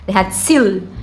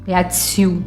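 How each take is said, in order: First: The final L is clear, tongue touching the palate. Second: The final L is softened into a vowel sound. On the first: The speaker calls it right. "a língua vai quase lá no céu da boca" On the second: The speaker calls it wrong. "a gente não pode falar leatsiu, leatsiu, né? Fica muito aportuguesado"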